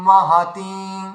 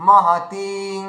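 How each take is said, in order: No difference in how they are said.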